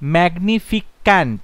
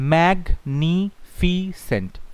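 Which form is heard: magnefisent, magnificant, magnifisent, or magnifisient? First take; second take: magnificant; magnifisent. First: The ending has a 'k' sound: -ficant. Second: The ending is a plain 's' sound: -fisent. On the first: The speaker calls it wrong. "ম্যাগনিফিক্যান্ট না" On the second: The speaker calls it right. "কত হচ্ছে ম্যাগনিফিসেন্ট"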